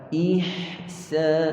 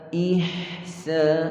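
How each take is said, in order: First: The h sound is held for its full length. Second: The h sound is held for its full length.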